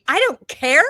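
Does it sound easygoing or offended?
offended. It sounds offended and questioning.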